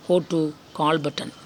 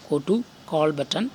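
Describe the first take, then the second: No difference in how they are said.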